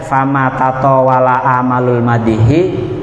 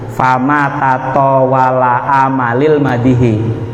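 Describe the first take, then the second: First: The vowels after tataw- and amal- are a and u. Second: The vowels after tataw- and amal- are a and i. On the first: The verb takes amal as its subject. The speaker calls it right. "Bener kabeh ya" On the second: A verb is wrongly put into a possessive construction. The speaker calls it wrong. "yang salah iku"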